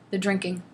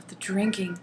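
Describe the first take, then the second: First: Said in the usual way. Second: Hushed, voiceless repeat of "drinking"; mock dramatic whisper. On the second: Shown as a demonstration. Reading the book's line aloud, she whispers it in mock dread. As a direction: breathe "the drinking" out in a hammed-up whisper.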